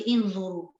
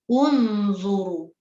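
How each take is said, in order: First: The word begins with an i vowel. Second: The word begins with an u vowel. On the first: The speaker calls it wrong. "jangan baca inzuru" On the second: The speaker calls it right. "dibaca dengan baris depan ataupun baris dhammah"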